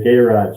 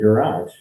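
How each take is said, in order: First: The word is said the Australian way. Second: The word is said in the speaker's usual way.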